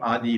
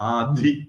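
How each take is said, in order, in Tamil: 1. நடுவில் உள்ள மெய்யெழுத்து சாதாரணமானது, மூச்சொலி இல்லாதது. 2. நடுவில் உள்ள மெய்யெழுத்து மூச்சு கலந்ததாகவும் மூச்சொலியுடனும் உள்ளது. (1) "அந்த அர்த்தம் ஆதி இல்ல" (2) "மகா பிராணன் மிருது"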